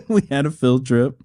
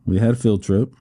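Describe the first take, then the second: First: Said through a real laugh; chuckling while repeating it. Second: Said in the usual way. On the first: Real, not acted. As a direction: laugh out the line at the absurdity.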